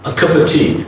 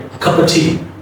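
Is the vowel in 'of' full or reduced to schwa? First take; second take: schwa; schwa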